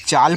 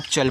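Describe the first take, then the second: First: चाल with a long open aa; long vowel chaal. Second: चल with a short clipped a; short vowel chal. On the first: Teacher showing चाल with long aa. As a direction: stretch the aa in चाल. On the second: Teacher showing चल with short a. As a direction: keep the a in चल short. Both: Shown as a demonstration. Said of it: "सीएचएएल को पढ़ते हैं दो शब्द के रूप में".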